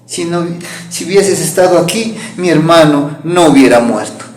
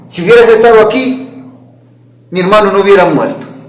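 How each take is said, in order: First: It is said softly, as if crying. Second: It is said explosively, almost shouting.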